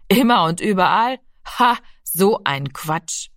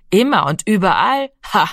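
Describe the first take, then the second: First: Scornful dismissal. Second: Mocking echo capped by a scoffing ha; scornful echo. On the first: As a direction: echo it, then drag out the dismissal. Brother dismisses boy's belief. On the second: Giro ridicules Rami's words about God, scornfully. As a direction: throw his words back with scorn. Brother quotes boy back scornfully. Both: A narrator's reading.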